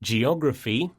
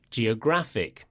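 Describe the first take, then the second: First: Geography with the stress on OG, rising; co-host repeating the noun stress. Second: Geographic with the stress on GRAPH, falling; co-host repeating the adjective stress. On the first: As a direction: lean on the second syllable of Geography. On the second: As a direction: hit the GRAPH syllable of geographic. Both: Shown as a demonstration. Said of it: "the stress falls on the penultimate syllable".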